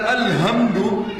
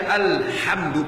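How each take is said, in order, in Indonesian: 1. Huruf h itu bunyi napas yang ringan dan biasa. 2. Huruf h itu bunyi keras dari tenggorokan. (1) "itu kematian bagi Allah" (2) "pakai ha"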